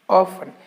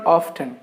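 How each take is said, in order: First: The t sound is silent in the middle. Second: The t sound is pronounced in the middle. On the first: The speaker calls it right. "the letter T is silent in this particular word" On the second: The speaker calls it wrong. "It's not often"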